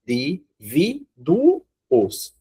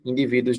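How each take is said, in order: First: Indivíduos drawn out very slowly, syllable by syllable, the final "uos" split apart; wrong syllable split. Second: Said in the usual way. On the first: Shown as a demonstration. Teacher showing students the wrong split, slow and syllable by syllable. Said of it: "corre o risco da pessoa querer dividir assim". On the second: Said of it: "mas aqui não precisava".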